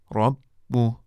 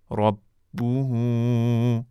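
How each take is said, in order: First: ربوه stopped short as "rabbuh"; teacher clips ربوه on a silent final "h"; pausal form. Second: ربوه drawn out very slowly as "rabbuhu"; teacher chants ربوه slowly with its full ending; recited in full. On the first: Teacher shows students the stop form, clipped. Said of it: "که در هنگام وقف". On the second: Teacher recites the example for students in full, drawn out. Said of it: "و کلمهٔ". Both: Shown as a demonstration.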